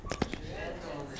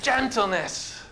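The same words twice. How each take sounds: First: Gentleness. almost breathed, slow and much softer; hushed. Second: Gentleness. lifted higher and stretched slowly; drawn-out emphasis. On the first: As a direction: let Gentleness. fall to a hush. Preacher savours the key word. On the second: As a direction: raise Gentleness. and linger on it. Preacher repeats the key word. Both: Acted.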